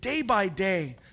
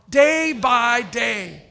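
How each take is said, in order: First: The phrase is said at ordinary reading strength. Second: The phrase is said loudly and with force.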